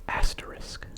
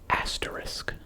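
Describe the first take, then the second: The two takes are said the same way.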